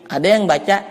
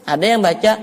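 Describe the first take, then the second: The two takes are said the same way.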